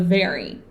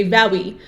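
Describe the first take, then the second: First: "very" with a clear V, teeth on the lip; correct V sound. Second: "very" said with a W-like start, "wery"; wrong V sound. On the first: Teacher modelling the correct "very" against the mistake. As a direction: say "very" with a proper buzzing V. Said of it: "instead of". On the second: Teacher showing the common wrong "very" with a W-like start. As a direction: say "very" with the lips rounded, like "wery". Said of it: "sometimes you say "very" instead of". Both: Shown as a demonstration.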